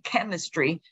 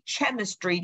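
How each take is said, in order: First: It begins with a k sound. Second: It begins with a ch sound. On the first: The speaker calls it right. "you study chemistry" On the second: The speaker calls it wrong. "you don't study chemistry"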